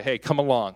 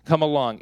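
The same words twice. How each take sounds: First: Said in the usual way. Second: A loud, warm call to come along; emphatic invitation. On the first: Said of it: "it's time for you to say". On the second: Shown as a demonstration. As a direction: Come along louder, stress on come. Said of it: "It goes back to this".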